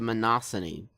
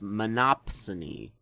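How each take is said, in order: First: It is said without a p sound. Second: It is said with a p sound. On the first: The speaker calls it wrong. "I got a few things wrong" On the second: The speaker calls it right. "it's actually pronounced monopsony, with a P"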